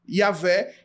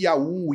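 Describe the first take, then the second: First: It is said as two syllables, ya-VEH. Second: It is said as two syllables, ya-OO. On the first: The speaker calls it right. "a pronúncia correta seria Iavé" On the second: The speaker calls it wrong. "e não aquela ideia de Iaú"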